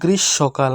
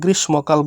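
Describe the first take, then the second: First: No m sound is heard after the sh. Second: An m sound is heard after the sh. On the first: The speaker calls it right. "এটার উচ্চারণটা হবে গ্রীষ্মকাল" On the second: The speaker calls it wrong. "গ্রীষ্মকাল বলবে না"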